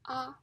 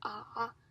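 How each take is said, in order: First: It is said with a high level pitch. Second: It is said with a dipping pitch. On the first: "is the first tone" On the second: "is the third tone"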